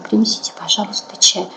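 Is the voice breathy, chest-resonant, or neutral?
breathy. The voice is soft and breathy on the exhale. It is said intimately. "А можно сказать более такой в интимной обстановке. Когда вдыхаем, мы говорим на выдохе до конца"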